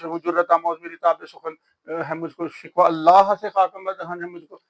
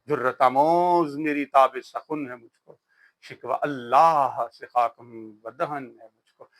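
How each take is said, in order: First: It is rattled off fast in a flat schoolroom style. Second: It is recited unhurriedly with melodic rises and falls.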